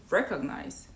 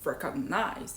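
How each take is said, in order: First: "recognize" stressed on REC, falling away after; native stress. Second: "recognize" with weight moved onto the final NIZE; non-native stress. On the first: Showing learners what native speakers say, first-syllable stress. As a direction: hit the start of "recognize". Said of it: "they say recognize". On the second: Showing learners what native speakers don't say, end stress. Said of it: "They don't say recognize". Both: Shown as a demonstration.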